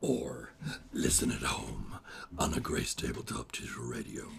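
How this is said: It is said in a put-on character voice.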